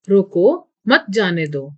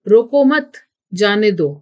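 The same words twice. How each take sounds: First: There is a pause after roko. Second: There is a pause after mat. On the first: Stop them; do not let them go. "रोको के बाद वाक्य बोलने वाले को कुछ देर ठहरना है" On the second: Do not stop them; let them go. "रोको मत के बाद कुछ देर ठहरना पड़ेगा"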